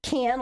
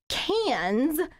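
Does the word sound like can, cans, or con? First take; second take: can; cans. First: It sounds like can, with no final s. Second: It sounds like cans, ending in s. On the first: "like a can of peanuts" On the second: "cans with an S, like cans of paint"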